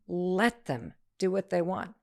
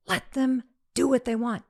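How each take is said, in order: First: Calm last repeat. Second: Higher, firm and final; firm daughter. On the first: Daughter's final repeat that brings peace, slow and calm. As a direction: let it land gently and slowly. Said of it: "by the time she said it the last time". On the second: Daughter telling mom it's their prom, firm. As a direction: lay it down firmly. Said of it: "Mom, it's their prom, not yours". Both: Retold or imitated.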